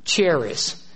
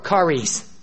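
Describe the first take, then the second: First: The word begins with a ch sound. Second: The word begins with a k sound. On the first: The speaker calls it wrong. "It looks like charis" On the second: The speaker calls it right. "sometimes the H is silent, and we pronounce it like a K"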